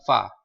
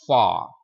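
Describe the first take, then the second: First: The vowel is short and clipped. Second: The vowel is a long open A. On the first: The speaker calls it wrong. "Jadi bukan fa" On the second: The speaker calls it right. "This one big A, A, far"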